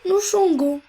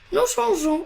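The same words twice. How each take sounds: First: The g is hard, like the g in go. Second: The g is soft, like the s in measure. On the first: The speaker calls it wrong. "pour ne pas dire" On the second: The speaker calls it right. "on a ajouté le e"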